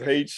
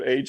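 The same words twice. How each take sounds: First: The letter name is said the Australian way. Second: The letter name is said the American way. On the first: "it was H" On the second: "instead of H"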